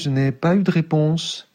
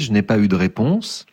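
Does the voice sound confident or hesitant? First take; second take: hesitant; confident. First: The voice sounds uncertain, withdrawn and fragile. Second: The voice sounds firm and assured. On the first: "je m'entendrai dire" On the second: "au lieu de dire"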